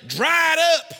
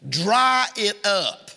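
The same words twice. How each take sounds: First: Raised, high-pitched mock fatherly shout; stern father. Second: Slow, drawn-out fatherly order; stern father. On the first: Preacher imitating his daddy to a crying child, stern shout. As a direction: bark it like a dad ordering a child. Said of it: "My daddy just looked at me and say". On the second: Retold or imitated. Preacher repeating his daddy's order, slow and stern. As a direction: stretch each word out like a dad laying down the law. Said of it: "That's what he would say".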